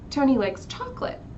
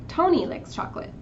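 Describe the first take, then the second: First: The highest pitch falls on the last word. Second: The highest pitch falls on the first word. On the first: It answers which flavor is liked. "the highest part is on chocolate" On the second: It answers who likes chocolate. "谁喜欢巧克力呢?"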